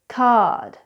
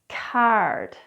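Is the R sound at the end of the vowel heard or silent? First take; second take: silent; heard. First: The R after the vowel is not pronounced. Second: The R after the vowel is clearly pronounced. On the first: This is how it sounds in the UK or Australia. "the or is actually rarely pronounced when it comes after a vowel" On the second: This is how it sounds in America, Canada or Ireland. "the R's are always pronounced"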